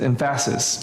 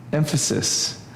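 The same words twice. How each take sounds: First: Emphasis with the middle syllable stressed, em-FASS-is; joking wrong stress. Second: Said in the usual way. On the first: Shown as a demonstration. Teacher joking to students about misplaced stress, emphasis as em-FASS-is. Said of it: "you put the wrong emphasis on it". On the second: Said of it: "Tell me how you say the word".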